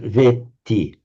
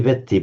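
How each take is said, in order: First: The E vowel is long. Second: The E vowel is short. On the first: The speaker calls it right. "a long E followed by a, a double T" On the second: The speaker calls it wrong. "So you don't say veti"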